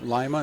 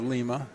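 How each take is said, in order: First: It is said the local Ohio way. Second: It is said the usual standard way. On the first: This is the local town's name. "We have Lima" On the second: This is the usual name elsewhere. "instead of Lima"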